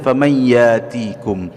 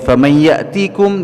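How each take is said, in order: First: A long vowel replaces the glottal stop. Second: A glottal stop is heard before 'tikum'. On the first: This is the Warsh reading. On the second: This is the Hafs reading.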